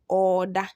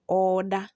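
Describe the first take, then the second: First: The re becomes a long doubled o vowel. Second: The re becomes a long doubled o vowel.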